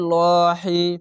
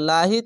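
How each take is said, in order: First: The 'l' is heavy with a deep, full vowel. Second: The 'l' is light with a thin, clear vowel. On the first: A vowel mark sits above the preceding letter. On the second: A vowel mark sits below the preceding letter.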